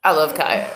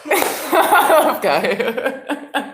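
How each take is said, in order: First: Said in the usual way. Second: I love Kaya drawn out slowly through laughter; laughing through it. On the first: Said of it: "repeats the line laughing". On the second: Shown as a demonstration. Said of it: "same line, slow and laughing".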